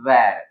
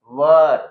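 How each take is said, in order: First: "where" said with an open "air" vowel, "wair"; where, not were. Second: "were" said as a short "wer", with an unstressed schwa vowel; were, not where. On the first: Teacher contrasts "where" with "were", open "wair" vowel. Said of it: "वो होगा". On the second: Teacher shows students the sound of "were", short schwa vowel. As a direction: say "were" like "wuh", clearly unlike "where". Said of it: "इसका pronunciation होगा". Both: Shown as a demonstration.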